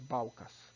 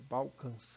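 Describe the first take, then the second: First: The last vowel is plain and oral. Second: The last vowel is nasalized. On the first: The speaker calls it wrong. "não é Balcas" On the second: The speaker calls it right. "indica a nasalização da vogal"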